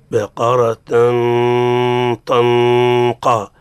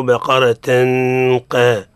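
First: "بقرة طنقا" with the nasal drawn out and overdone; exaggerated tanween. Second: "بقرة قا" with no nasal at all, straight into the qaf; dropped ghunna. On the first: Teacher mocking Hijazi overdoing, exaggerated nasal tanween. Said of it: "تقول فيه نشاز". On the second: Teacher imitating some Maghrebis, ghunna dropped. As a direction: clip "بقرة" and jump to "قا" without ghunna. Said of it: "مثل بعض المغارب يقولوا". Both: Shown as a demonstration.

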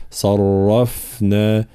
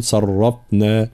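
First: "صرفنا" with a flowing, breathy ف; "صرفنا" with a soft continuous ف; correct soft fa. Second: "صرفنا" with a hard, stopped ف; "صرفنا" said with the ف cut short; wrong fa with stop. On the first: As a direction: let the air run through the ف in "صرفنا". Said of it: "هكذا". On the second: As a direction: clamp the ف in "صرفنا" with no airflow. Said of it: "فلا نقول". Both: Shown as a demonstration.

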